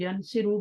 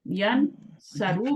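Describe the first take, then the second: First: The middle vowel is an 'i' sound. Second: The middle vowel is an 'a' sound. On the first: "ज़ेर डालें" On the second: "ऊपर ज़बर डालें"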